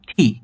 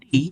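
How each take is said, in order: First: The t sound is said with a puff of air. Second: The t sound is said without a puff of air. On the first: The speaker calls it right. "টি এর উচ্চারণটা আসলে হবে ঠি" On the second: The speaker calls it wrong. "আমরা যে উচ্চারিত করি টি"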